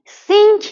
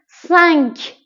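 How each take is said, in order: First: سینک with a clear ee and n, like English sink; wrong English-style cinq. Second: سنک with a nasal an sound, not seenk; French cinq. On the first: Teacher showing students the wrong pronunciation. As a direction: show the mistake, plain ee vowel. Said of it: "سینک اشتباهه". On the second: Teacher correcting the English-style seenk. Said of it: "سینک نیست". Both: Shown as a demonstration.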